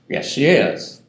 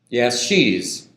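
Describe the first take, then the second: First: The verb is said in full and stressed. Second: The verb is contracted onto the pronoun. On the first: The speaker calls it right. "some emphatic stress on is" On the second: The speaker calls it wrong. "Absolutely impossible to contract the is"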